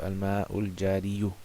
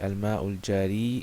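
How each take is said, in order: First: The last word ends with an added 'yu' sound. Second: The last word ends in a plain 'ee' sound. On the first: The speaker calls it wrong. "instead of al-ma'ul jariyu" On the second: The speaker calls it right. "we say al-ma'ul jari"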